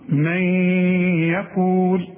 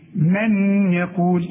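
First: The n blends into the following y sound. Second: The n is sounded clearly with the tongue. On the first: The speaker calls it right. "تقول من يقول" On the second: The speaker calls it wrong. "اوعى بقى تستعمل لسانك وتقول لي ايه من يقول"

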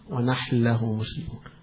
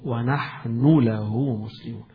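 First: The n sound merges into the following l. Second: The n sound is pronounced clearly before the l. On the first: "يدغموها إدغام" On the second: "غير مدغمة، مش مدغمة"

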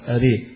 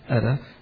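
First: The final vowel leans strongly toward 'e'. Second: The final vowel leans slightly toward 'e'. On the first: "غيره إذا وقفوا عليها زي حمزة والكسائي قال يقول أري" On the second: "الإمالة والتقليل، إذا وقف عليها ورش يقول أرى"

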